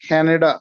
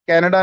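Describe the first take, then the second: First: The first k sound has a strong puff of air. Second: The first k sound is plain, without a puff of air. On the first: The speaker calls it right. "सी खा की sound देगा" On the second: The speaker calls it wrong. "कनाडा नहीं होगा"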